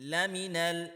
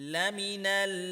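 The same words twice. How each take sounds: No difference in how they are said.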